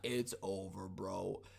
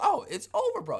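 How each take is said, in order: First: It is said with despair, sulking. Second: It is said calmly, with easy acceptance.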